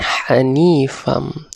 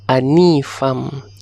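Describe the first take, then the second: First: The word starts with an 'h' sound. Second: The word starts directly with a vowel. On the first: The speaker calls it right. "bukan hanifam" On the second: The speaker calls it wrong. "selalu uh, murid-murid baca ialah anifam"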